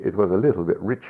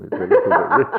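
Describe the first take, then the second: First: Said in the usual way. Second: Laughing. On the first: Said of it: "one of the friars did say". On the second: Real, not acted.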